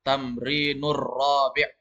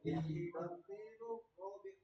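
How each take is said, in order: First: Slow, "Tamrinur rabi'" with the r held and doubled into "rabi'"; teacher drills the joined r slowly; linked r. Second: Soft "Tamrinur rabi'" without the doubled r; student reading it without the r; r left out. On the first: Shown as a demonstration. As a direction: lean on the rolled r of "Tamrinur rabi'". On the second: Real, not acted. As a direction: slur past the r of "Tamrinur". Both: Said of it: "Kasih masuk ro-nya".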